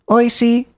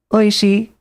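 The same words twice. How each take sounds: First: Oishi, pitch climbing on the word; oishi with rising pitch. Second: Oishi, pitch dropping on the word; oishi with falling pitch. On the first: Showing viewers the rising pitch accent of oishi. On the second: Showing viewers the falling pitch accent of oishi. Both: Shown as a demonstration. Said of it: "one goes up and one goes down".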